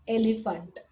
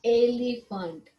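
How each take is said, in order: First: Said in the usual way. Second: एलिफेंट said slowly with a clear first ए; slow careful word. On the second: Shown as a demonstration. Teacher modelling एलिफेंट slowly for pupils. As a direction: stretch out एलिफेंट so the mouth shape shows. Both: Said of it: "देखो आप mouth का shape कैसे आ रहा है".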